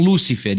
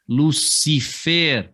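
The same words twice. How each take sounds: First: Lúcifer stressed on the first syllable, LÚ-ci-fer. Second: Lucifer slow, stressed on the last syllable, lu-ci-FER. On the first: Teacher to students, the wrong stress in Lúcifer on LÚ. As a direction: say Lúcifer with the weight on LÚ. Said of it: "Não é um Lúcifer". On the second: Teacher to students, the right stress in Lucifer on FER, said slowly. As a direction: stretch out Lucifer and land on FER. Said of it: "e sim Lucifer". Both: Shown as a demonstration.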